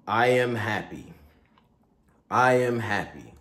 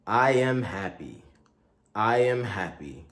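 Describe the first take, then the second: No difference in how they are said.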